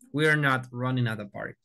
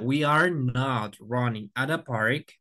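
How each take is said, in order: First: We are is contracted into one syllable. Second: We are is said as two full words. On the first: "con la contracción decimos we're" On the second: "decimos en la primera"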